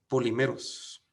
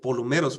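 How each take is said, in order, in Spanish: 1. El segundo sonido vocálico suena como 'ee'. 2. El segundo sonido vocálico suena como 'oo'. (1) "es la palabra griega polimeros" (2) "aunque se pronuncia polumeros"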